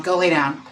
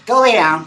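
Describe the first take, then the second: First: Said in the usual way. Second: Louder, higher, laughing command to lie down; laughing order. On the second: Real, not acted. Owner laughs while ordering her dog to lie down. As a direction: shoo the dog off mid-laugh. Sending excited dog away.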